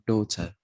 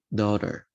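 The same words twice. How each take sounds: First: It is said in a British accent without R. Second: It is said in an American accent with audible R.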